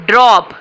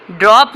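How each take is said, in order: First: ड्रॉप said alone, clear and firm, with a falling end; teacher models ड्रॉप; model word ड्रॉप. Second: Said in the usual way. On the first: Shown as a demonstration. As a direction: present the word ड्रॉप as a clean example. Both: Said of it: "देखें आप".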